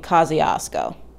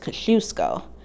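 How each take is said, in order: First: It is said the New York way. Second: It is said the Polish way. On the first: "in New York, you'll be fine saying" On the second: "the proper Polish pronunciation is"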